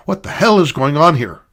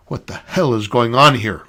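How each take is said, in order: First: "What the hell is going on here?" pushed louder and higher, stressing "hell"; sharp angry repeat; louder exasperated demand. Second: A touch of an angry demand in "What the hell is going on here?"; understated growled demand; mild growl. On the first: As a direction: repeat it, losing patience. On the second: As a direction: challenge the room with mild menace. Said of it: "growled the woman". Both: Acted.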